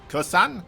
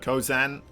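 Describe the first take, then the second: First: The name is said with an s sound. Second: The name is said with a z sound. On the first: "just to use the S then" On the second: "Instead of Kozan"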